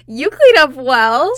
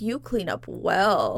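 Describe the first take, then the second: First: It is said in a teasing, joking tone. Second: It is said in a sincere, serious tone.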